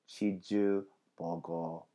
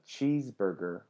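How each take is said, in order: First: The word has a Korean pronunciation. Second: The word has an English pronunciation.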